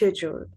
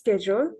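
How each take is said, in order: First: The word is said with a British pronunciation. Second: The word is said with an American pronunciation. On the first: "British হচ্ছে" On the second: "American ইয়ে হচ্ছে"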